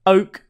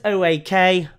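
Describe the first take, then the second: First: "Oak" said as one word, like the tree. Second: "O A K" said as three separate letters; spelled out. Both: Shown as a demonstration. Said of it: "as we would obviously say".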